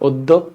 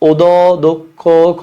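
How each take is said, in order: First: The word is said smoothly as one unit. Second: The word is broken into separate choppy parts. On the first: The speaker calls it right. "একদম সিম্পল" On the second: The speaker calls it wrong. "এরকম বলি না তো"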